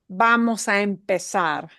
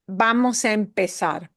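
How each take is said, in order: The two takes are said the same way.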